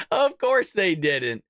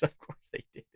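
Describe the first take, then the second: First: Slow, drawn-out scoff in full voice; scoffing repeat. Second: Hushed, whispery scoff under the breath; scoffing aside. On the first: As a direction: stretch it out slowly, voice falling at the end. Repeats the aside out loud. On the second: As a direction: say it very quietly, as an aside. Scoffing aside while reading out. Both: Real, not acted.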